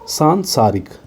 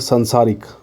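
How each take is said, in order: First: The first vowel is long. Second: The first vowel is short. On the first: The speaker calls it right. "ये बिल्कुल सही हो जाएगा" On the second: The speaker calls it wrong. "संसारिक नहीं होता है"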